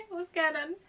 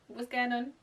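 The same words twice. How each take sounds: First: Much higher and louder disbelieving cry; incredulous loud repeat after a laugh; exclaimed. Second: Said in the usual way. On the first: Acted. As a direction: throw it out in disbelief.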